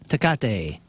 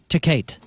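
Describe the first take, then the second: First: It is said with a plain, standard pronunciation. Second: It is said with a Missouri-style pronunciation. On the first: "Is that how you say it?" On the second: "or if you're from Missouri"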